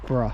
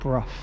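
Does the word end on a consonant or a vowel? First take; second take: vowel; consonant. First: The word ends on a bare vowel sound. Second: The word ends with a final consonant sound. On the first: The speaker calls it wrong. "You don't you don't say bruh" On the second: The speaker calls it right. "So you actually pronounce the G and H"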